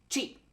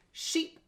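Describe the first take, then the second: First: Cheap starting with a sharp ch; quick ch. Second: Sheep starting with a smooth sh; soft sh. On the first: Teacher contrasts Sheep and cheap, crisp ch. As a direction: pop the ch in cheap. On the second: Teacher contrasts Sheep and cheap, soft sh. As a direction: glide into Sheep on a gentle sh. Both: Shown as a demonstration. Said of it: "How about sheep?".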